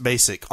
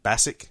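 First: "Basic" with first syllable like "bay"; "Basic" with a long A, as in "base"; long-A pronunciation. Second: "Bassick" with the a of "bass" the fish; "Bassick" said BASS-ick, short flat A vowel; short-A pronunciation. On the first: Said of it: "I've heard it pronounced Basic". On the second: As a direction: query "Bassick", first syllable rhyming with "mass". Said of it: "I think it's Bassick". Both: Shown as a demonstration.

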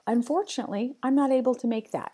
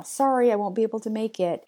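First: Confident rephrase. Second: Apologetic email line. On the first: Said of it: "How about". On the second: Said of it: "I started an email". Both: Shown as a demonstration.

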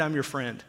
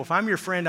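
First: Quiet, firm "friend"; softer, settled repeat of "I'm your friend"; soft emphatic. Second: Said in the usual way. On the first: Shown as a demonstration. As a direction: drop it softer to land the point. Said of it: "repeated line, softer emphatic close". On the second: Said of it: "repeated line set up for contrast".

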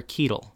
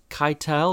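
First: First syllable of Keitel rhymes with "key"; Keitel as KEE-tul. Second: First syllable of Keitel rhymes with "sky"; Keitel as kye-TEL. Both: Retold or imitated. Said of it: "Tanya looked at me and she said".

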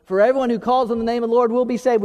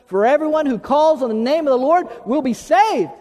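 First: Said in the usual way. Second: Raised, higher congregational recitation; out loud. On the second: Real, not acted. Pastor leading the church in the verse, out loud and rousing. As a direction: lead the crowd in saying it out loud. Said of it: "y'all say that out loud with me".

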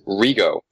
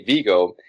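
First: "Rigo", with an R replacing the V; V turned into R. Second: Said in the usual way. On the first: Shown as a demonstration. Host mimicking Janosch's name for Vigo, V turned into R. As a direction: say "Rigo", starting on a clear R. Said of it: "he says Rigo". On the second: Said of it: "he doesn't say Vigo".

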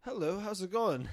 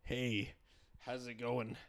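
First: Louder, put-on British accent; playful attempt at a British accent. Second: Lower, put-on American accent; American accent, pitched down. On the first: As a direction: greet in an amateur British accent. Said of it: "Let's hear your British accent". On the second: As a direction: greet in a playful mock-American accent. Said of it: "Do an American accent". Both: Shown as a demonstration.

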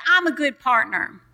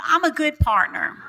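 First: Said in the usual way. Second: Said with conviction, pitch lifted; like you mean it. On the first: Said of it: "So I want you to say". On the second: Shown as a demonstration. Pastor showing congregation how to declare it with conviction. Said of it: "Say it like you mean it".

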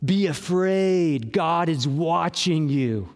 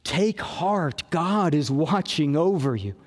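First: Slow, grim threat of being watched; ominous warning. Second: Reassuring. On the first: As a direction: pastor voicing God as a threat to fear, slow and ominous. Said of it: "the point of the psalm is not". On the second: Pastor voicing God's care for the anxious, low and reassuring. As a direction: tell them gently they are looked after. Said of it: "The point is". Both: Shown as a demonstration.

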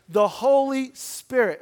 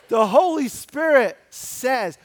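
First: Slow, a bad British accent, louder and higher; terrible British accent. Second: Said in the usual way. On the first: Preacher's quick jab at a British reading, a terrible British accent. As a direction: lean into a hammy British accent. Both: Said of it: "it was a terrible British accent".

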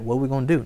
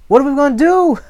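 First: Softer, understated helpless question; mock agreement. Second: Very high, loud wail; excited, panicked servant. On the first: Preacher voicing the answer the prophet never gave, mock resignation. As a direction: concede it quietly, as if giving up. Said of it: "No, he don't say that". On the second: Acted. Servant begging his master for a plan, panicked. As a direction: plead in hammed-up panic. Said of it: "Here I am getting all excited".

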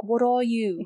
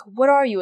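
First: Creature mimicking a British accent; imitated British accent, echoing her words. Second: Said in the usual way. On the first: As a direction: put on a rough British accent. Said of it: "it imitates a British accent". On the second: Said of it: "she's all saying".

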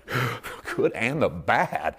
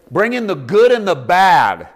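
First: "The good and the bad." slow and soft, marveling at "bad"; slow wonder. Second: "Bring in the good and the bad." loud and slow, punching "good" and "bad"; loud proclamation. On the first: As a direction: savour it slowly in disbelief. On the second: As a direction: proclaim it with full force. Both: Shown as a demonstration.

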